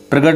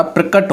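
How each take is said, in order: First: प्रगट said with a g sound; teacher showing the wrong spelling प्रगट; wrong form. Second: प्रकट said with a k sound; teacher giving the correct spelling प्रकट; correct form. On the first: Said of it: "प्रगट नहीं होता". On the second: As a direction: say प्रकट with a clear k. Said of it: "प्रकट होता है". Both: Shown as a demonstration.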